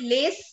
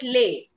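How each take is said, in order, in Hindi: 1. अंतिम s की ध्वनि का उच्चारण होता है। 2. अंतिम s की ध्वनि मौन है। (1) "we don't call it lace" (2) "we call it lay"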